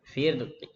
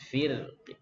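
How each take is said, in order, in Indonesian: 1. Vokal akhir hanya sebagian bersuara, sangat pendek. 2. Vokal akhir hanya sebagian bersuara, sangat pendek.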